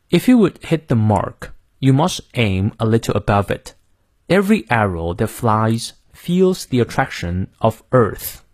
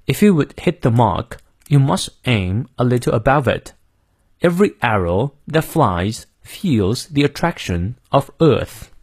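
First: American accent. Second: British accent. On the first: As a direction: model reading in American English, r sounded in "mark" and "Earth". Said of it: "最后美式发音". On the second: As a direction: model reading in British English, r silent in "mark" and "Earth". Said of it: "我们来念一下英式发音". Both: Shown as a demonstration.

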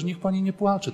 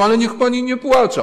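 First: Higher, tender hush to a crying woman; tender comforting. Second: Higher, louder, pleading plea to stop; insistent pleading. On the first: Priest tenderly consoling a weeping wife, gently. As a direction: coax her softly to stop crying. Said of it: "jak ja do niej mówiłem tak czule". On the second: Priest urging a sobbing woman to stop, louder and higher. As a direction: beg her to stop crying. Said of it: "Ja mówiłem". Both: Retold or imitated.

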